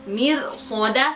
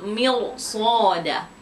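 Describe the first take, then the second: First: The r is pronounced light and thin. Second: The r is pronounced heavy and thick. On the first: The speaker calls it wrong. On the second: The speaker calls it right. "yang betul"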